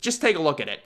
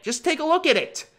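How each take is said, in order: First: Said in the usual way. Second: Much higher, incredulous; pitched-up exasperated plea; exasperated high repeat. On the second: Shown as a demonstration. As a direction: squeak it out in disbelief. Repeats phrase, second time pitched up.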